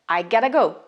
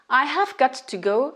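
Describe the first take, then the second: First: It is shortened to gotta with a soft T. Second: The words have got to are said in full. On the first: "devient I gotta go" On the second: "c'est la réduction de have got to"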